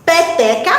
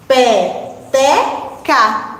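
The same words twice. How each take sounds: First: Said in the usual way. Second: "Peteca" very slow, split into pe, te, ca; long gaps between the syllables of "Peteca". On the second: Shown as a demonstration. Teacher analysing "Peteca" with pupils, slowly syllable by syllable. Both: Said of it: "Vamos analisar sílaba a sílaba".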